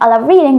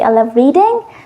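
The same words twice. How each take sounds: First: The voice falls at the end. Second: The voice rises at the end. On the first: The speaker sounds sure of what they say. The speaker calls it right. "instead of saying" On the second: The speaker sounds unsure and doubtful. The speaker calls it wrong. "they end in a high tone"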